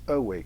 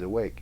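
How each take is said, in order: First: The stress is on the first syllable. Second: The stress is on the second syllable. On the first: The speaker calls it wrong. "reverse the stress and turn it into strung weak" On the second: The speaker calls it right. "Instead of"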